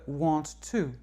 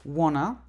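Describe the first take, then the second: First: Each word is said fully and separately. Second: The words are blended into one short word.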